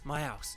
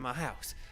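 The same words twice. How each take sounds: First: The h in house is dropped, Cockney-style. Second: The h in house is clearly pronounced.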